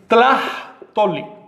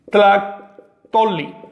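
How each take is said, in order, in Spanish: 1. La consonante del medio es aspirada, como una j. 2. La consonante del medio es una k dura. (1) "En Veracruz, ¿cómo le pronunciaría?" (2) "se pronuncia duro"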